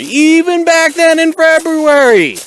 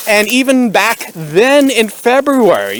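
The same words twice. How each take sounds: First: Higher and louder, slow and stretched; emphatic repeat. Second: Said in the usual way. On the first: Acted. Stressing the date to viewers, slow loud emphatic. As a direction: lean hard into it the second time. Repeats phrase, second more forceful.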